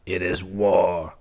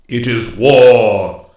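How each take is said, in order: First: Slow, contained menace; savage retort. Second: Very loud, slow, ringing pronouncement; booming declaration. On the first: King accepts the woodsman's war, slow understated savagery. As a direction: return it with restrained savagery, unhurried. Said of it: "returned the king savagely". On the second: Master woodsman declares war on the king, loud and commanding. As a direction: proclaim it slowly at full voice. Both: A narrator's reading.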